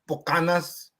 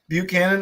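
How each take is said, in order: First: The name is said in South Texas Spanish style. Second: The name is said in standard English style.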